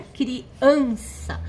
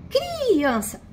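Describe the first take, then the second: First: "criança" slowly, leaning long on the middle syllable "an"; stress on AN. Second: "criança" with a long, high first syllable "cri"; stress on CRI. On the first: Teacher giving the correct version, criança with strong middle an. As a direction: draw out the an of criança, as it should be. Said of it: "a sílaba tônica é o an". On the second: Teacher trying another wrong stress, criança with strong drawn-out cri. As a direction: stretch and punch the cri of criança, rest falling away. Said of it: "se a gente colocar no cri". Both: Shown as a demonstration.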